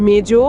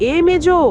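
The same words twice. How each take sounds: First: Calling out. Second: High, loud call across the house; shouting a name. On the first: Calling out to Mejo. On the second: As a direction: yell for her to come out. Calling louder to Mejo. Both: Acted.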